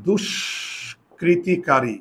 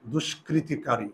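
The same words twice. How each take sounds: First: Drawn out syllable by syllable; slow dictation of দুষ্কৃতিকারী; slow spelling demo. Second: Quieter, slow repeat; gentle slow repeat of দুষ্কৃতিকারী; soft slow dictation. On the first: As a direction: stretch the word দুষ্কৃতিকারী slowly so students catch each sound. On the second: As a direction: say দুষ্কৃতিকারী again quietly and slowly. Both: Shown as a demonstration. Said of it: "তোমরা আমাকে কিন্তু বুঝাবে".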